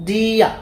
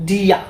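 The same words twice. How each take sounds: No difference in how they are said.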